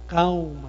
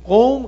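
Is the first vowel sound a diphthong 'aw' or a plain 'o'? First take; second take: aw; o. First: The first vowel is an 'aw' diphthong. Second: The first vowel is a plain 'o' sound. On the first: The speaker calls it right. "چون فتح هستش قبل از واو دیگه" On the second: The speaker calls it wrong. "قوم غلطه"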